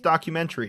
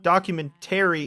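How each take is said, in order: First: The A sound in the word is dropped. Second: The A sound in the word is fully pronounced. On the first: The speaker calls it right. "You can't just take out the A like that" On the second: The speaker calls it wrong. "You gotta pronounce the A"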